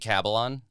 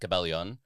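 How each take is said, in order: First: The name is said English-style, rhyming with Babylon. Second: The name is said Tagalog-style, with a 'lyon' ending. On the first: "entirely phonetic, rhymes with Babylon" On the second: "in Tagalog it would be"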